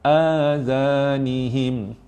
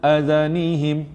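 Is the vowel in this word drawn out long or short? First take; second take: long; short. First: It is said slowly with a lengthened vowel. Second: It is said fast with a short vowel. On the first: "lambat ya" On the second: "Kalau laju azanihim, itu pendek"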